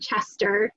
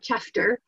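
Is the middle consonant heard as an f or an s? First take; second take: s; f. First: The middle consonant is an s sound. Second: The middle consonant is an f sound. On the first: This is the intended name of the tune. The speaker calls it right. "that is supposed to be Chester" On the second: This is a misreading of the old letter. The speaker calls it wrong. "not Chester"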